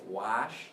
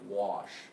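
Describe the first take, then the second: First: The vowel is an open 'ah' sound. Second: The vowel is a rounded 'aw' sound. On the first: Other speakers say it this way. "Some people might say wash, that ah ah ah" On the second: The speaker personally says it this way. "I would say this as wa, as this aw sound"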